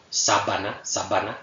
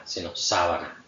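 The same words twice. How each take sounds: First: "sábana" with a hard stopped b, lips fully closed; wrong stop b. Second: "sábana" with a soft b, lips barely touching; soft fricative b. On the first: Teacher shows Spanish "sábana" said wrongly with a hard b. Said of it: "No decimos". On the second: Teacher shows the correct soft Spanish b in "sábana". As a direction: let the b in "sábana" slide through the lips. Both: Shown as a demonstration.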